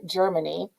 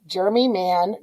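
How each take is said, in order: First: "Germany" as one word, softer, rising end; quiet, run-together "Germany". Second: "germy man" as two words, stress on germy; "germy man" with a rising end; said apart. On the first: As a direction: blend "Germany" into a single word. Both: Shown as a demonstration.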